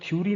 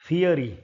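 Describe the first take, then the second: First: The first vowels merge into one syllable. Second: The first vowels form two separate syllables. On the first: The speaker calls it wrong. "ये शब्द थ्योरी नहीं है" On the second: The speaker calls it right.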